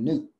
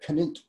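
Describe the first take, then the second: First: The name starts with an n sound. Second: The name starts with a k sound. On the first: "call him Newt" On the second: "That's the original pronunciation"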